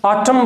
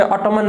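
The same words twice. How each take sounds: First: ऑटम ending on m; silent n. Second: ऑटमन with the final n sounded; the mistaken n-ending on ऑटमन; wrong pronunciation. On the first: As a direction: say ऑटम without an n. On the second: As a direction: say ऑटमन, adding an n after m. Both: Shown as a demonstration. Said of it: "ऑटमन नहीं बोलेंगे".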